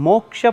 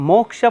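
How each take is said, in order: The two takes are said the same way.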